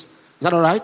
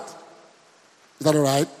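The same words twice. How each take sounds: First: Said in the usual way. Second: "Is that all right?" stretched out slowly and lower; a lingering, slowed-down "Is that all right?"; slow, drawn-out question. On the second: Shown as a demonstration. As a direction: drag "Is that all right?" out, word by word.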